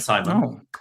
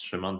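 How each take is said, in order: First: The name is said with English pronunciation. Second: The name is said with Polish pronunciation. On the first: "you can call me Simon" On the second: "that's my Polish pronunciation of my name"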